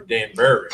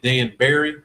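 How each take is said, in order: First: "Dan Barry" with the ending squashed to "burry"; second pronunciation. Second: "Dan Barry" said with a second word like "berry"; first pronunciation. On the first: Asking the team how the place is said, second pronunciation. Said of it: "how I said it the second way". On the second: Asking the team how the place is said, first pronunciation. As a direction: say "Dan Barry" with a clear BEAR sound. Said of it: "is it Dan Barry or Dan Barry". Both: Shown as a demonstration.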